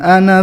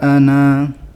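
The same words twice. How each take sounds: First: The final vowel is short, running into next word. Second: The final vowel is held long before a stop. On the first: The reading continues without stopping. "Sekarang kita baca yang wasal, berarti pendek" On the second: The reading stops at this word. "Panjang karena waqaf"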